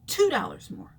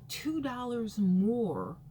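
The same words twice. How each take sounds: First: "Two" punched high and loud, then a falling finish; outraged emphasis. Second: Two dollars more, drawn out slowly and heavily; slow complaint. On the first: Venting to viewers about gas prices, loud and outraged. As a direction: hit "Two" hard and high in disbelief. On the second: Complaining about gas prices, slow and heavy. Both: Real, not acted.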